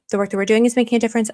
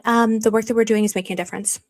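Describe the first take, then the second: First: Fast, rattled off at speed; rattled-off repeat. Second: Said in the usual way. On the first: Shown as a demonstration. Streamer restating her official answer, quickly. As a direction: zip through the line quickly. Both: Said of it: "That's what I'll say".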